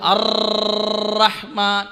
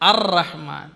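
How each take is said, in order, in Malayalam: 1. R ശക്തമായും നീണ്ടും ഇളക്കണം. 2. R ലഘുവായും ചുരുക്കിയും ഇളക്കണം. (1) "കട്ടി കൂട്ടാൻ പാടില്ല, സ്ട്രോങ് ആകാൻ പാടില്ല. ചിലത് അർ റഹ്മാൻ അങ്ങനെ ഓതരുത്" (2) "മറിച്ച് അർ റഹ്മാൻ"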